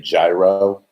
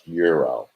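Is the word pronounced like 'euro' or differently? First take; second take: differently; like euro. First: It is said the common American way. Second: It sounds like the word euro. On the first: The speaker calls it wrong. "a lot of Americans say gyro" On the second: The speaker calls it right. "but it's pronounced euro"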